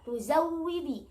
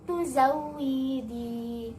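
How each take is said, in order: First: The final vowel is short. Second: The final vowel is drawn out long. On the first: "harusnya dibaca tuzawwidi" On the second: "dibaca dipanjangkan harokatnya"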